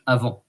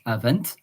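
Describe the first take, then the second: First: The final T is silent. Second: The final T is pronounced. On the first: "in French, ... We don't pronounce the T" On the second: "In English"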